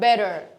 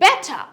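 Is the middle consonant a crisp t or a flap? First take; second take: flap; crisp t. First: The middle t sounds like a d, with r. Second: The middle t is crisp and strong. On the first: "R টা উচ্চারণ করবে and D উচ্চারণ করবে" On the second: "T strongly"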